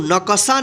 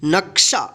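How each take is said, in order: First: An extra 'a' vowel follows the k sound. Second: No vowel follows the k sound. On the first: The speaker calls it wrong. "इसको नकशा नहीं पढ़ेंगे" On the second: The speaker calls it right. "जल्दी उच्चारण कीजिएगा"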